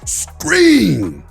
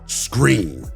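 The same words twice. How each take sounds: First: The word is shouted with great force. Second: The word is said calmly without much force.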